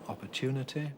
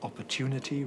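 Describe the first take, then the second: First: The final vowel is a short lax 'i' sound. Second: The final vowel is a tense 'ee' sound. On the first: "rather than" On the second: "he does use an E rather than an I at the end of a word"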